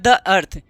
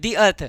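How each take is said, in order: First: 'The' is said with a short 'uh' vowel. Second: 'The' is said with a long 'ee' vowel. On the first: "sorry" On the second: "इसका pronunciation दी दी अर्थ बोला जाता है"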